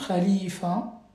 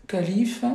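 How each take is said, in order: First: Khalifa with a guttural kh and a final a, unlike French calife; Arabic pronunciation. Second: Said in the usual way. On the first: Shown as a demonstration. Teacher contrasting French calife with Arabic khalifa for pupils. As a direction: say khalifa the Arabic way, throat kh first. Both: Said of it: "donc, calife".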